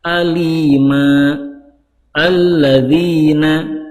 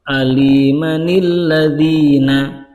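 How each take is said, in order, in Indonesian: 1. Ada waqaf di antara kedua kata, tidak ada bunyi n. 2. Kedua kata disambung, ada tambahan bunyi n. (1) "kalau diwakafkan" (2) "kalau di wasol"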